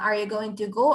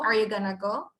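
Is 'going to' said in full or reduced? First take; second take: full; reduced. First: Going to is said as two full words. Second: Going to is reduced to a single word, gonna.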